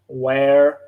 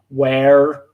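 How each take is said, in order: First: It is said American-style with a strong R. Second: It is said American-style with a strong R.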